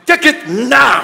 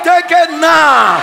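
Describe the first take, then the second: First: Said in the usual way. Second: Slow shouted command. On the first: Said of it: "I said". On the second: Shown as a demonstration. Preacher commanding the church to take it now. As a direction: shout each word of Take it now slowly. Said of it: "I said, take it now".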